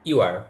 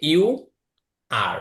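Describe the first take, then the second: First: The two words are linked together. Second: The two words are said separately. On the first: "যখন একটু মিলিয়ে পড়বেন তখন হচ্ছে ইউ আর" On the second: "যদি আপনি আলাদা করে বলেন তখন হচ্ছে ইউ আর"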